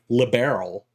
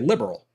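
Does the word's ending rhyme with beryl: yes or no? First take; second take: yes; no. First: The ending sounds like the word beryl. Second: The ending does not sound like beryl. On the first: "like a gemstone, like beryl, like liberal" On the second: "they would often say liberal"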